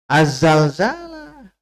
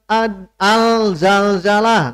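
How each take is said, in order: First: The L is absorbed into a doubled Z sound. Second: The article is said with a clear L sound. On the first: The speaker calls it right. "Harusnya Az-Zalzalah. Karena alif lam Syamsiah" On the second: The speaker calls it wrong.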